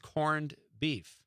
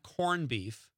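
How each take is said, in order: First: It is said with a d sound. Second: It is said without a d sound. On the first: The speaker calls it right. "It's corned beef" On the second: The speaker calls it wrong. "It's not corned beef"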